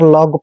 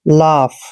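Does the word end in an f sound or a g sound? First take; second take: g sound; f sound. First: The word ends with a hard g sound. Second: The word ends with an f sound. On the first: The speaker calls it wrong. "इसको अक्सर लॉग पढ़ते हैं जो कि गलत है" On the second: The speaker calls it right. "ऐसे लाफ"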